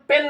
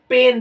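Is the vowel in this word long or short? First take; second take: short; long. First: The vowel is short, one beat long. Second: The vowel is long, two beats long. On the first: "इसको अगर हम पेन बोल रहे हैं तो एक एक" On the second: "जो दर्द वाला होता, अगर पेन बोलेंगे तो दो एक लग जाएगा"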